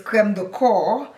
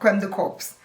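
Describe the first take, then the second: First: The last word ends with a silent p and s. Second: The last word ends with sounded p and s. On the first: It names a cream for the body. The speaker calls it right. "It's creme de corps, meaning body cream" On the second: It names a cream for a dead person. The speaker calls it wrong. "It is not creme de corps"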